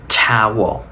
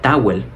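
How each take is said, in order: First: The final L is barely heard; vowel stretched. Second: The final L is clearly sounded. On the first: The speaker calls it right. "más bien se pronuncia towel" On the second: The speaker calls it wrong. "no sería towel"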